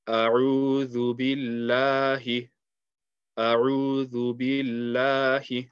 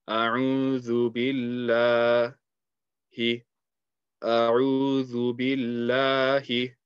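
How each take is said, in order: The two takes are said the same way.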